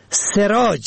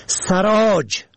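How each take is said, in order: First: سراج said "seraaj", short e first; kasra on first letter. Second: سراج said "saraaj", short a first; fatha on first letter. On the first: Teaching the word for light, short e vowel. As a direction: say سراج as "se-raaj". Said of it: "به کسر اول". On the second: Teaching the word for saddler, short a vowel. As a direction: say سراج as "sa-raaj". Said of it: "به فتح اول". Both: Shown as a demonstration.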